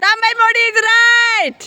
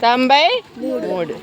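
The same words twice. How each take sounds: First: Much higher, louder and slow, drawn-out; excited announcement. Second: Slow, deliberate reading of the number; slow reveal. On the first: Real, not acted. Teacher announcing the winner to the class, excited and slow. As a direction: draw out the win like a game-show host. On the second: Shown as a demonstration. Teacher showing the paper to the class, slow reveal. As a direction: read the number out slowly as you show it. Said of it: "నేను మీకు ఇప్పుడు చూపిస్తాను".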